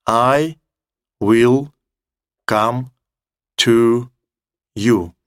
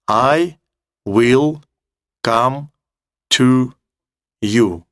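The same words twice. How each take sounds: The two takes are said the same way.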